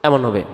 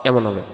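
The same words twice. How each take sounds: Both takes have the same delivery.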